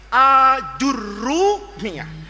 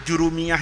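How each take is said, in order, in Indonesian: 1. Dimulai dengan 'a' panjang dan 'r'-nya rangkap. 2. Dimulai dengan 'ju' dan 'r'-nya pendek. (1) "alifnya itu panjang A, jimnya dibaca pakai dhammah, aju, roknya dikasih tasdid" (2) "Itu Jurumiyah itu istilah Indonesia orang Melayu kita"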